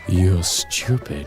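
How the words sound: It is said in a sultry, sexy voice.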